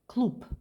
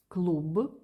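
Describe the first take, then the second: First: The word ends in a voiceless p sound. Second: The word ends in a voiced b sound. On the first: "but we pronounce like клуб" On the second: "it's written клуб"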